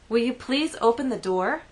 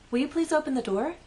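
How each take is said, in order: First: It sounds annoyed and irritated. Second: It sounds polite and friendly.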